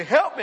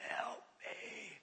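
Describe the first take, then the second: First: High, loud cry for help; retold yell. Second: Tiny, very soft strangled squeak. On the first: Pastor pinned in a wrestling match calling out, yelled. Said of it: "he yells at me". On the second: Retold or imitated. Possessed young man begging the pastor, squeaked out. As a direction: squeeze it out with almost no voice. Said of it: "he squeaks out".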